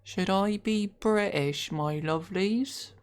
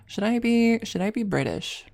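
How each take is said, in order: First: Slow, put-on British accent; exaggerated British accent, slowly drawn out. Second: Said in the usual way. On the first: Shown as a demonstration. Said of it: "I'm not doing that accent". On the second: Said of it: "should I do an accent for this one?".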